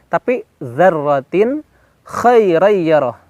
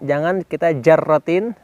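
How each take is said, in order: First: The word begins with a voiced th sound. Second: The word begins with a j sound. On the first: The speaker calls it right. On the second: The speaker calls it wrong.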